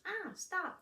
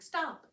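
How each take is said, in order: First: High squeal, mimicking the scream; toy hamster echo. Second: High, loud mock yell; imitated toddler scream. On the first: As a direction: parrot a child's scream as a toy. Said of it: "the hamster goes". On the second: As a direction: yelp it like a frustrated toddler. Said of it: "then she would scream".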